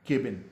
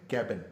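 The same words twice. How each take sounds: First: केबिन as KAY-bin; long "ay" in केबिन; common mispronunciation. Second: कैबिन with the short a of cat; correct pronunciation. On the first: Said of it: "which is again wrong". (केबिन, "के" वाली आवाज़ के साथ) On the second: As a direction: open the vowel, KAB-in for कैबिन. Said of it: "असल जो इसका तलफ़ुज़ है". (कैबिन, "कै" खुला बोलते हुए) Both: Shown as a demonstration.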